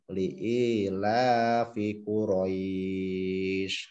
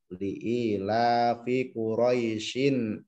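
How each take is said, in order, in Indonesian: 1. Vokal kata terakhir dibaca panjang, tanpa akhiran. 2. Kata terakhir dibaca pendek dan berakhiran -in. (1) "kalau diwakafkan berarti bacaan matlin" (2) "ini kalau diteruskan"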